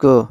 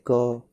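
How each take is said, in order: First: क cut short, without the full अ sound; halant क. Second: क read whole, with a clear अ sound after it; full vowel on क. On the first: Teacher showing the half letter, short halant क. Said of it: "हलंत अक्षर पढ़ते समय ये आवाज़ नहीं आनी चाहिए". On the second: Teacher showing the full letter, क with its full अ sound. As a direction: let the अ ring out in क. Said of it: "पूरे क को पढ़ते हैं तो अ की आवाज़ सुनाई देती है". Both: Shown as a demonstration.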